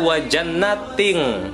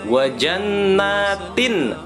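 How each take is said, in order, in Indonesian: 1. Bunyi n di akhir berubah menjadi bunyi ng. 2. Bunyi n di akhir dibaca sebagai n yang jelas. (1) "Bukan wajannating" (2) "tetapi jelas dibacanya"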